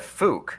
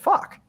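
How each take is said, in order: First: The vowel sounds like the one in 'book'. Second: The vowel sounds like the one in 'buck'. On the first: "I would have never said Fook" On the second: "I would have said fuck"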